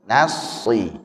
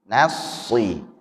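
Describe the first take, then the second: No difference in how they are said.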